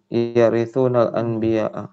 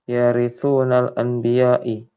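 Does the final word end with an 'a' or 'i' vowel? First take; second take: a; i. First: The last word ends with an 'a' vowel. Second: The last word ends with an 'i' vowel. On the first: The word is read as a direct object. The speaker calls it right. "berarti maf'ulun bih" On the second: The word is read as a genitive. The speaker calls it wrong. "Kenapa dibaca majrur?"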